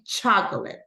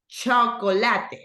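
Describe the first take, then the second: First: It starts with an English ch and sounds reduced. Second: Every syllable is sounded fully, Spanish style. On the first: The speaker calls it right. "But in English, it's like sugar. Like three syllables" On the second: The speaker calls it wrong. "we say in Spanish the whole thing"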